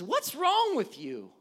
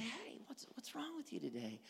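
First: Loud, high, drawn-out accusing question; confrontational inflection. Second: Soft, casual check-in; gentle voice inflection. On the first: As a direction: lean hard and slow on the challenge. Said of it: "things like voice inflection". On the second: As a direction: ask it softly and kindly. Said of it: "you can look at things like voice inflection". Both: Shown as a demonstration.

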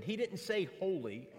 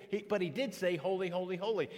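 First: Said in the usual way. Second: Each "holy" weighted, rising then falling; emphatic triple holy. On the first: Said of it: "a tool of emphasis". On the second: Shown as a demonstration. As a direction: stress "did" and lean on each "holy, holy, holy" in turn. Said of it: "using a highlighter as a tool of emphasis".

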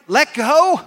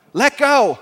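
First: High, loud "Let go?" lifting at the end; "Let go?" as a doubting, raised question; incredulous question. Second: "Let go" as a falling, loud statement; projected "Let go", pitch dropping at the end; firm instruction. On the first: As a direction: query "Let go?" in disbelief. Man doubts God again. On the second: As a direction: answer "Let go" with finality. God repeats the instruction. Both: Acted.

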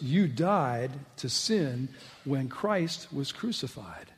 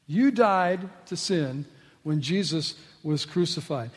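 First: Slow dictation. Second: Said in the usual way. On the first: Shown as a demonstration. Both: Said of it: "jot this down in your notes".

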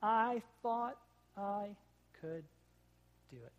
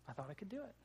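First: Halting, broken-up words of a hurt child, lightly imitated; mock crying kid. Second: Put-on much softer, a hurt child's small voice, lightly done; softer mock tearful kid. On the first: Dad retelling his crashed son's answer, halting mock sobs. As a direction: stop between every word like a little boy in tears. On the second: Dad repeating his son's tearful words, very soft. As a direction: say it quietly, as a little boy after crying. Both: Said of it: "And in his tears".

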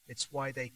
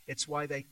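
No difference in how they are said.

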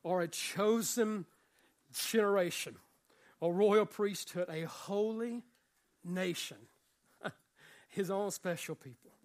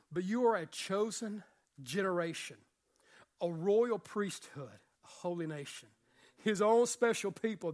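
First: Slow, every phrase set apart by pauses; slow emphatic reading. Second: Said in the usual way. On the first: Shown as a demonstration. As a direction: lay down each phrase of "are a chosen generation" with a pause after it. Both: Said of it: "repeated reading of the verse".

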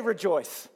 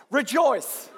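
First: Said in the usual way. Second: Rejoice said higher and louder with joy; joyful. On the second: Shown as a demonstration. Pastor asking the church to say it with joy, joyful Rejoice. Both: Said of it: "say it with, like, joy in your voice".

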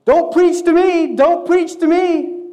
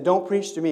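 First: Much higher, much louder, slow shouted refusal; angry shout. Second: A touch louder, slightly raised retelling of the shout; mild mock shout. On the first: Retold or imitated. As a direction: yell it while waving your arms. Man shouting at preacher. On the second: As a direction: quote the shout back without real anger. Friend repeating the quote back.

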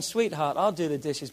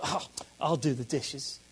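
First: Softer, lower, willing offer; gladly. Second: Low, soft, grudging sigh of an offer; reluctant. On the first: Husband to wife, a glad, soft offer. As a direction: say it like you're glad to help. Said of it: "I'm gladly doing it". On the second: Husband to wife, a reluctant, grudging offer. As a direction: drag it out like a grudging chore. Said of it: "the tone is not kind". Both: Shown as a demonstration.

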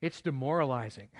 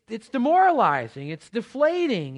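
First: Said in the usual way. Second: Demoralizing pushed out louder and higher; emphatic. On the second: Real, not acted. Pastor stressing to the church how deflating it feels, loud and high. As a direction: hit demoralizing hard, voice rising. Building rant about failed days.

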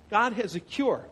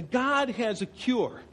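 First: God has a cure, landing on cure with a fall; stress on cure. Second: God has a cure, leaning on God, slowly; slow, weight on the word God; stress on God. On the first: Preacher repeats the line, now stressing cure. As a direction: push the word cure. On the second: Preacher repeats the line, stressing God. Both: Shown as a demonstration.

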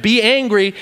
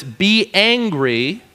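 First: "Be angry" punched on "Be", falling; firm command. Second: "Be angry" slow with a rising end; drawn-out command. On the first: Preacher reading "Be angry" to the church, firm and falling. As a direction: state "Be angry" firmly, falling. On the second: Preacher savoring the verse "Be angry", slow and rising. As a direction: stretch "Be angry" out slowly, rising. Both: Shown as a demonstration. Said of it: "Bible just commanded me to be angry".

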